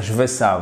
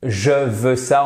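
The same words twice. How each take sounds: First: "je veux ça" quickly, with "je" shortened onto "veux"; casual contracted French. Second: "je veux ça" slowly, every word separate; full careful form. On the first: Teacher showing what people really say, casual contraction. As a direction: clip the vowel of "je" in "je veux ça". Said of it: "on va dire je veux ça". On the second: Teacher giving the form people avoid in speech, careful full pronunciation. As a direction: sound "je" fully in "je veux ça", slowly. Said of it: "au lieu de". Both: Shown as a demonstration.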